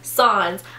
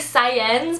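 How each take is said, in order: First: The name is said as one short syllable 'sahns'. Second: The name is said like the word 'science'. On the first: The speaker calls it right. "I think that's it" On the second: The speaker calls it wrong. "I always say Science, but that's not correct"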